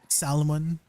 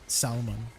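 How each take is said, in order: First: It is said in a Filipino accent. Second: It is said in a Canadian accent. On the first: The speaker calls it wrong. "I can try to mimic a Filipino accent, you know. That's how my mom says salmon" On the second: The speaker calls it right. "The the L is silent"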